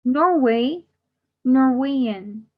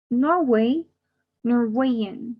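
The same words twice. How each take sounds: The two takes are said the same way.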